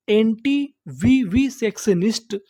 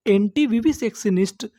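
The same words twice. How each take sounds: First: "anti-vivisectionist" very slowly, piece by piece, pitch rising at the end; broken into syllables. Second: Said in the usual way. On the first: Shown as a demonstration. Teacher breaking a long word into pieces for learners, syllable by syllable. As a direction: sound out "anti-vivisectionist" in separate chunks. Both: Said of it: "टुकड़ों में तोड़-तोड़ के पढ़ना है".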